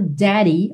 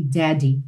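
First: "Daddy" with a tapped middle, like "dary"; American pronunciation. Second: "Daddy" with a firm middle D, lower pitch; full D. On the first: Teacher showing the Americanized sound, "Daddy" with a tap. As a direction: flap the D in "Daddy". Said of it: "esse sotaque mais americanizado". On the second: Teacher showing the non-Americanized option, "Daddy" with a solid D. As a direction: say "Daddy" with no tap. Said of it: "Não é errado". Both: Shown as a demonstration.

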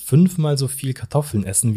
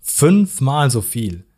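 First: Said in the usual way. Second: "Fünfmal so viel" slowed right down and louder; emphatic repeat. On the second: Real, not acted. Host impressing potato portions on listeners, "Fünfmal so viel" stressed slowly. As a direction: drive home "Fünfmal so viel" word by word, slowly.

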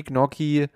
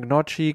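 First: Gnocchi said as gnocki. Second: Gnocchi said as gnottschi; Italian Gnocchi. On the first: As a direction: Gnocchi with a hard k. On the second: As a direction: Gnocchi with a tsch sound. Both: Shown as a demonstration. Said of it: "Was wollen wir sagen?".

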